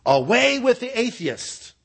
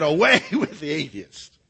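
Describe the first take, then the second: First: High, drawn-out proclamation; pitched up high and held, slowly; declaimed denunciation. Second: Raised pitch with a punched AWAY; cheeky, defiant retort; spunky defiance. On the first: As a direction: declaim it like an official decree. Proconsul's demanded denunciation, acted out. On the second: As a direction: throw it back at the crowd, spunky. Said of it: "He was spunky". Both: Acted.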